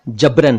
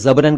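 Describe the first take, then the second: First: The word begins with a 'j' sound. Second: The word begins with a 'z' sound. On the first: The speaker calls it right. "जबरन है बलपूर्वक" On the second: The speaker calls it wrong. "कई लोग इसे जबरन कह देते हैं, जो कि ठीक नहीं है"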